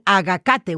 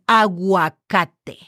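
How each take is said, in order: First: The G goes straight into the vowel. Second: A 'w' sound follows the G. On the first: The speaker calls it wrong. "we're not saying agacate" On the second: The speaker calls it right. "we're saying aguacate because it's a U and then an A"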